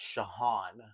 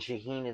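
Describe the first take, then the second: First: The name's last vowel sounds like 'ah'. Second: The name's last vowel sounds like 'ee'. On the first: The speaker calls it right. "It's Shahan" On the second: The speaker calls it wrong. "Shaheen is not right"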